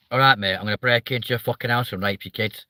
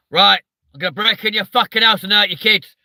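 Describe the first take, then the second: First: Pleasant northern English lilt on a threat; northern English accent. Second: Loud, higher southern English threat; southern English accent. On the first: Streamer mimicking northerners' threats to Jonathan, friendly northern accent. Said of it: "you make it sound nice". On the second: Streamer showing a southerner's scary threat, loud southern accent. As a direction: menace them in an aggressive southern English accent. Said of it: "a southerner to go". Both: Retold or imitated.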